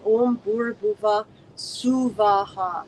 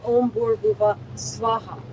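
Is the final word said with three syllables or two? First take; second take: three; two. First: The last word has three separate, equal syllables. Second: The last word is squeezed into two syllables. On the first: The speaker calls it right. "three separate equal syllables" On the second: The speaker calls it wrong.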